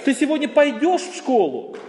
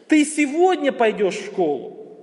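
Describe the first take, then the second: First: The stress falls on the word пойдешь. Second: The stress falls on the word сегодня. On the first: The question is whether or how one goes. "Вообще ты в принципе идешь или нет? Или ты пойдешь, или поедешь" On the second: The question is about when. "Теперь мы переносим это ударение на второе слово"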